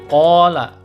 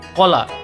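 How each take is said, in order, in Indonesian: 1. Vokalnya dipanjangkan, dua harakat. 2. Vokalnya dibaca pendek, tidak dipanjangkan. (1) "Qala dipanjangkan ko-nya dua harakat" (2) "Tidak boleh dibaca qola"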